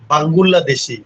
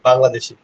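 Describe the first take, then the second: First: The word has extra vowels, in a Korean style. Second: The word is said the plain Bengali way. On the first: "ও একটু পেঁচায় বলতেছে" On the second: "আপনি বলবেন কি?"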